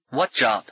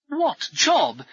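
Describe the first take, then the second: First: Weary "What job"; understated impatient question; tired of asking. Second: High, incredulous "What job"; amazed echo of the question; dumbfounded. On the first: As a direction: ask "What job" with little lift, worn out by questions. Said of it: "Paul was getting tired of asking questions". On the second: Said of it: "Brummond seemed dumbfounded". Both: A narrator's reading.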